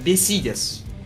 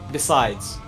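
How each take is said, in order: First: It is said with a thick Russian accent. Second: It is said in a plain English accent.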